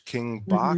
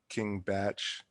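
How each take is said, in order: First: The name ends with a k sound. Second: The name ends with a ch sound. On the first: "It's spelled B A C H" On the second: "as a joke he pronounces it King Batch"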